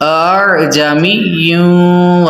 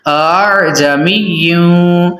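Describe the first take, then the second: No difference in how they are said.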